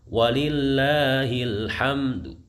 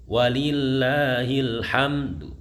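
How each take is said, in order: No difference in how they are said.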